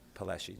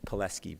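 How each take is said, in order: First: The middle consonant sounds like 'sh'. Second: The middle consonant cluster sounds like 'sk'. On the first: The speaker calls it wrong. "not Pileshi" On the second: The speaker calls it right. "it's Pileski"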